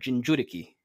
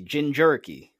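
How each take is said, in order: First: It is pronounced with Japanese sounds. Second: It is pronounced with English sounds.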